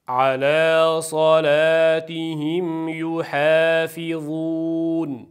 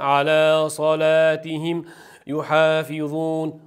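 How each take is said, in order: First: The words run together in one breath. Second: The reading stops between the words. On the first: The words are joined into one unit. "vasl qilinayotgan kalimalar bir nafasda o'qilishi kerak" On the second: The words are read as separate stops, not joined. "u vasl bo'lmaydi. Bu yerda vaqf qilingan bo'lib qoladi"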